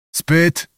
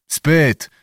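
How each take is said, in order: First: "Spyt?" asked on a higher pitch; questioning. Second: "Spyt" as a falling statement; answering. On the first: Bohun checks on the sleeping girl, asking "Spyt?". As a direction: ask "Spyt?" as a short question. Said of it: "spytał". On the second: Old Cossack reassures Bohun, answering "Spyt". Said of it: "odpowiedział stary kozak". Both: A narrator's reading.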